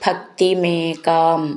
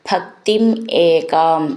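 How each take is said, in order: First: The two words are run together as one. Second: The two words are said separately.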